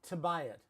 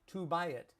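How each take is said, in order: First: The words run together with relaxed lips. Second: Each word is said fully with clear lip movement. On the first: The speaker calls it right. "we would also say to buy it" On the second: The speaker calls it wrong. "not to buy it"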